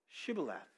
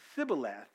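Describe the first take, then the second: First: The word begins with an sh sound. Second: The word begins with a plain s sound. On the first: The speaker is from Gilead. The speaker calls it right. "if they pronounced it correctly" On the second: The speaker is from Ephraim. The speaker calls it wrong. "if they pronounced it Sibboleth"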